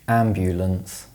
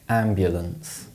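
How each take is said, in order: First: The middle vowel is a short full oo sound. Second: The middle vowel is reduced to a schwa.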